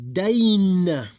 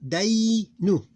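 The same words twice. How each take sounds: First: Dain high, loud and drawn out, closing on n; double closed syllable. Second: Day held high, then a short open nu; two separate syllables. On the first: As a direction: glide long through Dain and stop on n. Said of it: "it will be pronounced like this". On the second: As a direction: stretch day, then add nu. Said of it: "the open one is nu". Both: Shown as a demonstration.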